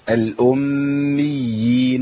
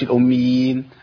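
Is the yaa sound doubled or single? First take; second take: doubled; single. First: The yaa sound is held doubled. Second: The yaa sound is short and single. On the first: The speaker calls it right. "الامي ده عندي مشدد قبل الياء المشدده" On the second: The speaker calls it wrong. "ما بقولش"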